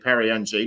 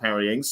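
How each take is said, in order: First: The surname is said as a short 'ng' sound. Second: The surname is said as 'Ings' with a vowel. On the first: The speaker calls it right. "so it's actually Perry N G" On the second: The speaker calls it wrong. "not Perry Ings"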